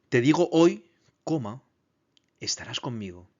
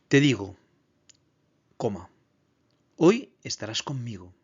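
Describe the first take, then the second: First: The break comes right after the word hoy. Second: The break comes right after the word digo. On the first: The promise is made today, for being together later. The speaker calls it right. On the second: The promise is that they will be together that very day. The speaker calls it wrong.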